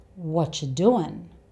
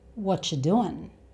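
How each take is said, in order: First: The words are squeezed into two reduced sounds. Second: The words are squeezed into two reduced sounds.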